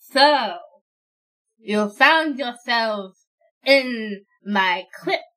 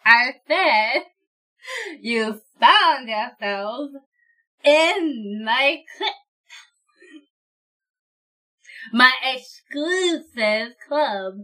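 First: Slow, drawn-out undead lord; menacing crypt lord, slow; lich voice. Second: Lich voice. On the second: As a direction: drag out each word, annoyed. Lich repeats himself. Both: Acted.

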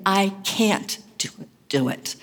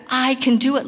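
First: "can't" weighted and dragged; stress on can't. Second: "do" lifted with a rise; stress on do. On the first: Preacher voicing doubters, stress on "can't". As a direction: press hard on "can't" in "I can't do it". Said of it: "with the emphasis this time on the can't". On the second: Preacher mocking self-reliant leaders, stress on "do". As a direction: lean on "do" in "I can do it". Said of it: "These are the "I can do it" leaders". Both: Shown as a demonstration.

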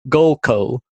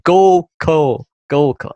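First: Goal call in a flat northern accent. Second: Goal call with softened northern vowels; switched accent. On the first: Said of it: "that sounds so wrong in my northern accent". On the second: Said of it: "I'm switching". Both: Shown as a demonstration.

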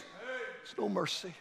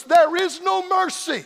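First: Hushed warning. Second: Slow, ringing pulpit cry; thundered warning. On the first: Preacher repeating the warning to the congregation, hushed. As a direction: let it fall almost to nothing. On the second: Preacher warning the unsaved at the climax, thundering. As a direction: draw it out at full preaching force. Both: Real, not acted.

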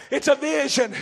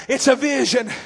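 Both takes have the same delivery.

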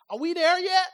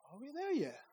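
First: Louder, pushier take on it; impatient demand. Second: Soft, whiny question. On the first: Preacher demonstrating the impatient passenger's question, louder. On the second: Preacher demonstrating the tired passenger's question, much softer. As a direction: ask it small and tired. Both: Shown as a demonstration. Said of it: "Depending on the inflection of the question".

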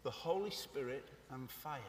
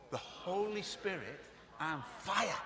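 First: Said in the usual way. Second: Slow, awed, reverent; slower, reverent take; with more awe. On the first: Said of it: "Can we say it?". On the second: Shown as a demonstration. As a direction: savour each word in wonder. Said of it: "Say it with a little bit more awe".

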